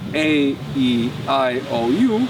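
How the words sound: The vowel letters are named as in English. "in English you say"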